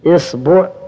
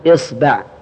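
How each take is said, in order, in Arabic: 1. تبدأ الكلمة بحركة i. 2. تبدأ الكلمة بحركة i.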